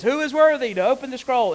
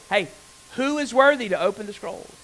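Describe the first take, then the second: First: Angel's call, higher and louder. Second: Angel calling out, a bit higher and louder. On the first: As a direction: cry it out like a herald. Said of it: "an angel says". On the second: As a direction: proclaim it like a herald. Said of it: "says in a loud voice". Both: Retold or imitated.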